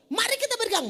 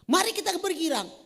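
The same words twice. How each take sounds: First: It is said loudly, with lots of energy. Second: It is said slowly, with little energy. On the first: The person is pushing others to rejoice. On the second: The person is not really enthusiastic.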